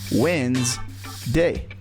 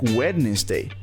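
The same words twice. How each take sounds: First: It is said with just two syllables. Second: It is said with three syllables, as spelled. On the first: The speaker calls it right. "it's just two syllables" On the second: The speaker calls it wrong. "If you read it the way it's spelled"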